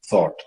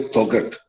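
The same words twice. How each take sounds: First: Said in the usual way. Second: Thoughtghat with every letter sounded, gh included; old spelled-out pronunciation. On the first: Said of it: "you don't say Thoughtghat". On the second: Shown as a demonstration. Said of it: "you don't say".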